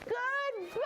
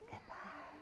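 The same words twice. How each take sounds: First: It is said loudly. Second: It is said quietly.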